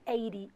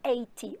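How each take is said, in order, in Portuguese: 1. Fala com sotaque americano. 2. Fala com sotaque britânico.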